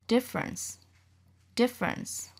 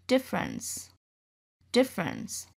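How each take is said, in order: The two takes are said the same way.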